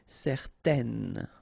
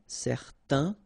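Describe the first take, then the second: First: It ends with a clearly pronounced n sound. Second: It ends in a nasal vowel, no n sound. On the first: The form is feminine. "then you will pronounce it n" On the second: The form is masculine. "so it's nasal in your nose, un"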